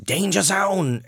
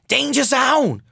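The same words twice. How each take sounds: First: It is said in a normal, lower chest voice. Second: It is an attempted high falsetto that breaks. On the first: "So I can only do danger zone anymore" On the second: "that's what happens when I try to do the old way"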